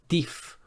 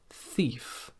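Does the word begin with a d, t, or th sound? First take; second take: d; th. First: The word begins with a d sound. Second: The word begins with a th sound. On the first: The speaker calls it wrong. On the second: The speaker calls it right.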